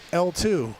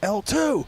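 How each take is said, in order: First: The call is said at a normal loudness. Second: The call is said more loudly than before. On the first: The first call gets no response. "you say it louder" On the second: The call is repeated because there was no response. "and then louder"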